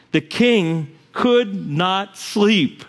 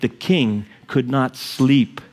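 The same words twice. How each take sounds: First: "The king could not sleep" drawn out word by word, weight on could; very slow repeat. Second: "the king could not sleep" said slowly with weight on sleep; slowed telling. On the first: Preacher repeating it very slowly for the congregation. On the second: Preacher stressing the king's sleepless night. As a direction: lean on "sleep", slow and steady. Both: Shown as a demonstration.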